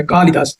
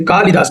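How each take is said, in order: First: कालिदास with a quick, short "li". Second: कालिदास with the "li" wrongly stretched to "lee"; long-vowel mispronunciation. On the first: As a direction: keep the middle i of कालिदास brief, falling away. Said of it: "छोटी की मात्रा होती है". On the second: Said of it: "कालिदास नहीं होता है". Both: Shown as a demonstration.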